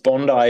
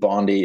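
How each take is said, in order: First: Bondi is said with an Australian pronunciation. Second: Bondi is said with an American pronunciation. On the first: "It's Bondi if you're Australian" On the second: "Bondi if you're American"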